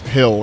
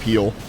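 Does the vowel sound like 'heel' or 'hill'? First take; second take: hill; heel. First: The vowel is short, like in 'hill'. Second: The vowel is long, like in 'heel'. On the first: "it was hill instead of heal" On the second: "instead of heal"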